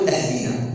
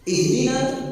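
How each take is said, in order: First: The word begins with a glottal 'ah' sound. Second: The word begins with a light 'ih' sound. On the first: Give us a gift. The speaker calls it wrong. "القراءة الخاطئة الإنسان يقول أهدنا" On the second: Guide us. The speaker calls it right. "اهدنا من الهداية"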